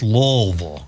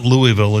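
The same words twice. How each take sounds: First: Louisville squashed into LAWL-vul; local slurred pronunciation. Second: Louisville said clearly as LOO-ee-vil; standard pronunciation. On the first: Host quoting what people say, Louisville as LAWL-vul. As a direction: say Louisville as two mushy syllables, LAWL-vul. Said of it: "Sometimes people say, "It's not Louisville". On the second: Host quoting the rejected way, LOO-ee-vil for Louisville. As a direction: say Louisville with an EE in the middle. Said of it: "Sometimes people say". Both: Shown as a demonstration.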